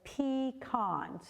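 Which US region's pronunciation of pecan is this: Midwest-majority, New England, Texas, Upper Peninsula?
Upper Peninsula. It is said the Upper Peninsula way. "up in the Upper Peninsula, they have a few people that say pecan"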